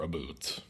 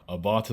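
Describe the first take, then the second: First: "a boot" said as one word with an "oo" vowel; mock-Canadian "a boot" for about; Canadian "aboot". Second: "about" with an "ah" vowel, like "a-bot"; American "abat". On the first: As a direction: say "a boot" with a long "oo". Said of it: "is the correct replacement for "a boot". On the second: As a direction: say "about" as "abot", no OU glide. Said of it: "Americans are allergic to the letter combination O U". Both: Shown as a demonstration.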